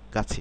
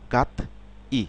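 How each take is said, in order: First: The syllables are joined, with a ch sound. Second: The syllables are separate, with a t sound. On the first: "এটা উচ্চারণ হবে গাছি" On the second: "গাত গাত ই"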